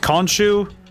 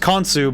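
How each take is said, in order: First: The name has an 'sh' sound before 'u'. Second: The name has a plain 's' sound before 'u'. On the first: This is how other games say the name. "other games pronounces Khonshu" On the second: This is how the game says the name. "This game pronounces Khonsu"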